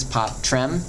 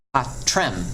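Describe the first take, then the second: First: "pot, trem" with T and R pulled apart; split consonants. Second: "pot, trem" with T and R run together into the second syllable; consonants joined forward. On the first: Teacher shows Latin students the mistaken split, consonants separated. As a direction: close "pot" on the T, then start "trem". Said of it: "these would separate and go different directions". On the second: Teacher shows both consonants going forward, T and R blended. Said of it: "they both go forward". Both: Shown as a demonstration.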